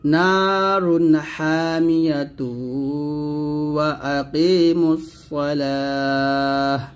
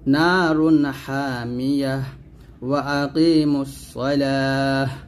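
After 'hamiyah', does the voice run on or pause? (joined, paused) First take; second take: joined; paused. First: The words run on with '-tu' and no pause. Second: It stops on a final 'h' before continuing. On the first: "প্রথমে মিল করে পড়লে" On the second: "ওয়াকফ দেন প্রত্যেক জায়গায় ওয়াকফ হলে প্রত্যেকটা জায়গায় হাসিন করতে হবে"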